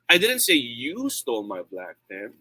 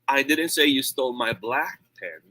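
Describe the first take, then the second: First: The word "you" carries the main stress. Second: The word "black" carries the main stress. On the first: Someone else took the pen. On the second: A pen of another color was taken. "It means maybe yung red ang ninakaw or kinuha"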